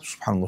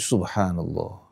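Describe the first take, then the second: First: It is rattled off quickly and mechanically. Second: It is said slowly and thoughtfully.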